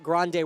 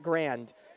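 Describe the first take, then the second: First: It is said with two syllables, ending in a vowel. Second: It is said with one syllable, ending in d. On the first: This is the pronunciation the school avoids. "we're not going to call it Grande" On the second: This is the pronunciation the school uses. "we're going to call it Grand"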